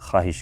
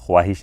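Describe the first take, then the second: First: The 'w' sound after 'kh' is silent. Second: The 'w' sound after 'kh' is pronounced. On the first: The speaker calls it right. "ख्वाहिश कहें, ... उसको silent रखा जाता है" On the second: The speaker calls it wrong. "ख्वाहिश ना कहें"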